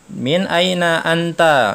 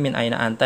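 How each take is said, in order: First: "Min aina anta?" drawn out slowly, higher and louder; slow model phrase. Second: Said in the usual way. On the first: Shown as a demonstration. Teacher demonstrating the question, slow and emphatic. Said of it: "katanya di sini kan". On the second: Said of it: "itu artinya".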